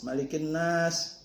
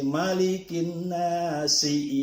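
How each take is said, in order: First: The last word ends on the consonant. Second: The last word ends with a short vowel. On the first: The speaker calls it wrong. "Jangan diwasol" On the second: The speaker calls it right. "harkat huruf akhir dari akhir ayat itu harus diucapkan"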